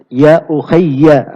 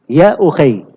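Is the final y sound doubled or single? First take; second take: doubled; single. First: The final y is doubled, followed by a vowel. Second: The final y is single, ending the word. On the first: This is the original full form of the word. "ya-nya itu ditasydid" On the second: The poem's meter requires this shorter form. "ya-nya disukun"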